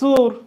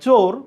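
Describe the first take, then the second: First: The vowel is said as a close u. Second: The vowel is said as a rounded o. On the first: This is how the Mymensingh region says it. "ওরা বলবে সুর" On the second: This is the standard pronunciation. "তুমি যদি বলো চোর"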